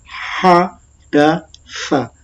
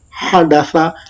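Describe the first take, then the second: First: Each syllable is separated by a short break. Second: The syllables flow together without any breaks. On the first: The speaker calls it right. "putus-putus saja" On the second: The speaker calls it wrong. "Jangan apa seperti udah mahir"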